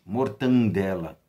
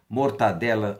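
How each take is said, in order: First: An n sound comes before the d. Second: There is no n sound before the d. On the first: The speaker calls it wrong. "não existe mortandela" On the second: The speaker calls it right. "Por mais que para nós mortadela soe feio"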